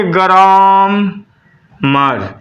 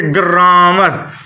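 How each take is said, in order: First: ग्रामर very slow, long ग्राम, pause, then अर as मर; two separate syllables. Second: ग्रामर slowed, long vowel in ग्रा; drawn-out word. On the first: Teacher counting syllables for students, ग्रामर split in two. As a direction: break ग्रामर into a long ग्रा and मर. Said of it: "दो syllable बन गए". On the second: Teacher showing students how to read, slow drawn-out ग्रामर. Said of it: "syllable बन रहा है". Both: Shown as a demonstration.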